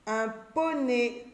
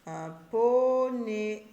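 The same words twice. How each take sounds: First: Poney said slowly, the o stressed; drawn-out poney. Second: Very slow poney with a split before one; stretched poney. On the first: Teacher sounding poney slowly to show the O. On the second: Teacher splitting poney slowly so children hear O. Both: Shown as a demonstration. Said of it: "j'entends O".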